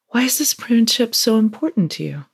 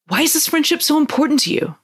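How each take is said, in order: First: It is asked calmly, without urgent force. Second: It is spat out with urgent, demanding force.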